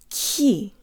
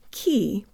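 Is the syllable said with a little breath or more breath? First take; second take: more breath; little breath. First: The syllable is said with more breath. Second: The syllable is said with little breath. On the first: The speaker calls it right. "Put more air through on the ка, not ки, but ки" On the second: The speaker calls it wrong. "not ки"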